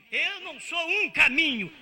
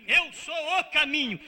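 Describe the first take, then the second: First: "um" stressed loud with a falling tune; wrong article. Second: "o" stressed loud with a falling tune; right article. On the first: Preacher contrasts "um caminho" against "o caminho", loud "um". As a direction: hit "um" to reject it. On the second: Preacher insists on "o caminho", loud stressed "o". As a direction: land firmly on "o". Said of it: "Isso significa o único caminho". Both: Shown as a demonstration.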